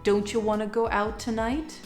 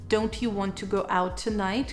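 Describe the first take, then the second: First: Both 'don't you' and 'want to' are reduced. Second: Every word is said fully and separately. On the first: "take it to the next level" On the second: "the sentence"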